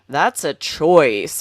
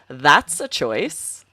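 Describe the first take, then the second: First: The stress falls on the word choice. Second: The stress falls on the word that's. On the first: The speaker calls it wrong. "it would be strange" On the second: The speaker calls it right. "the emphasis is on that first word"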